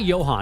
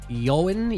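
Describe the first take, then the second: First: The name begins with a J sound. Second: The name begins with a Y sound. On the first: The speaker calls it wrong. "It's not Johan" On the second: The speaker calls it right. "It's like Yoan"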